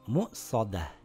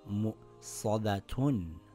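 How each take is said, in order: First: The word ends in a soft h sound. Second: The word ends in a full -atun sound. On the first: The reader stops at this word. "when I stop, ... It reads mu-sadah" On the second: The reader continues past this word. "if I continue reading, I will read it as mu-sadatun"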